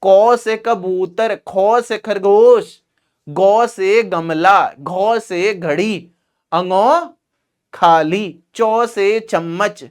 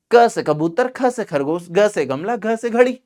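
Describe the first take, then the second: First: Slow, sing-song primary teacher drilling 'को से कबूतर'; primary school ma'am. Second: Said in the usual way. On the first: Retold or imitated. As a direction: stretch each letter to 'o' like a primary ma'am. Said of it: "primary में ma'am थी तुम्हारी?". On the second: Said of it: "ऐसे कहो बस।".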